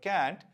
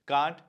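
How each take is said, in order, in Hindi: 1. यह अमेरिकी लहजे में बोला जाता है। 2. यह ब्रिटिश लहजे में बोला जाता है। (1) "कैंट अमेरिकन एक्सेंट में होता है" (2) "कांट ब्रिटिश एक्सेंट में होता है"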